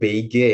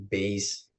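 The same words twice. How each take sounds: First: The word is read letter by letter as spelled. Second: The word is said with the English pronunciation. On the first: The speaker calls it wrong. "Bukan beige ya" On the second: The speaker calls it right. "tapi beige"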